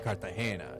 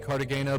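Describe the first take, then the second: First: It is said with a Colombian Spanish accent. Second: It is said with an American accent.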